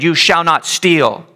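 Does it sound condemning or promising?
condemning. It sounds like a stern, condemning command.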